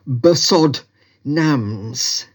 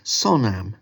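First: Every written letter, including the silent ones, is sounded. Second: The silent letters are dropped in speech. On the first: The speaker calls it wrong. "which in typical Tibetan spelling is spelt B" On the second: The speaker calls it right. "But you actually say it sonam"

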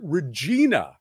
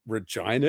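First: It uses the standard pronunciation of the word. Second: It uses the city's own local pronunciation. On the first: This is how an outsider says the city's name. The speaker calls it wrong. "the American narrator said Regina" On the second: This is how the city's name is really said. The speaker calls it right. "But Regina is the city"

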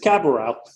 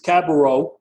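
First: The name is said with Catalan pronunciation. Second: The name is said with French pronunciation. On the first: "if you're speaking Catalan, which I prefer, it's Cabareau" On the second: "if you're speaking French, it's Cabareau"

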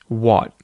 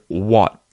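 Both takes have the same delivery.

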